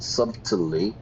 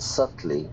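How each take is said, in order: First: The B sound is pronounced. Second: The B sound is silent. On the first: The speaker calls it wrong. "not subtly" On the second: The speaker calls it right. "the B is silent"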